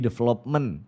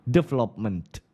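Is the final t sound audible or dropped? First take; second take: dropped; audible. First: The final t sound is dropped. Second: The final t sound is clearly heard. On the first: The speaker calls it wrong. "aku nggak ada huruf T-nya" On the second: The speaker calls it right. "Harusnya development"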